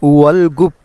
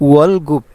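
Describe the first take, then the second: The two takes are said the same way.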